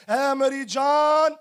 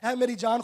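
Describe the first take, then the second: First: Drawn-out, self-addressed call; foolish rich man. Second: Said in the usual way. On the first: Acted. Preacher voicing the foolish rich man to his soul, drawn out. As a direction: stretch it slowly as the complacent fool. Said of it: "वो पता क्या कहता है नादान शख्स". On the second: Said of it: "Dawood कहता है".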